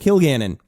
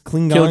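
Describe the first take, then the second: First: The name begins with a 'kil' sound. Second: The name begins with a 'kling' sound. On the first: The speaker calls it right. "That's how you say it" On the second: The speaker calls it wrong. "I've been reading it wrong in my head all these years"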